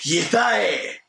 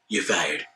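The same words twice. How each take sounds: First: It is said forcefully and loudly. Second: It is said flatly and quietly.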